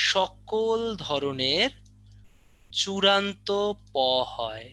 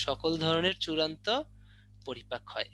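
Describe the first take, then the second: First: সকল ধরনের চূড়ান্ত said very slowly and higher, each word weighted; slow heavy stress. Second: Said in the usual way. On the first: Shown as a demonstration. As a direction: lean hard on সকল ধরনের চূড়ান্ত like a teacher driving it home. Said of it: "teacher stresses key phrase". (শিক্ষকের মতো ধীরে জোর দিয়ে) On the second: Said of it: "plain repeat after stress".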